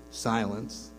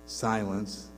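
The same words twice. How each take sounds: The two takes are said the same way.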